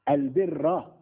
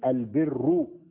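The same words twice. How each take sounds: First: The word ends with a short 'a' vowel. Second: The word ends with a short 'u' vowel. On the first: The noun is the predicate of laysa. "البر بالنصب" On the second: The noun is the subject of laysa. "البر على أنه اسم ليس"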